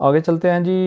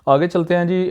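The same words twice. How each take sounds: The two takes are said the same way.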